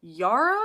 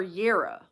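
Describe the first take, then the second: First: Yara as YAR-uh, loud and high; short A in Yara. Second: Yara as YAIR-uh, loud; long A in Yara. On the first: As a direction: offer Yara loudly with an open "ah" first syllable. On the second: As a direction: offer Yara loudly with an "eh" first syllable, as in air. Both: Shown as a demonstration. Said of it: "long A or short A".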